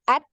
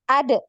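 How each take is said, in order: First: The final d is held with no release. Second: The final d bounces with a short echo. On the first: "hilangkan dulu kol-kolahnya, eh, dia bunyinya seperti ini" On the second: "karena dia termasuk huruf yang memantul"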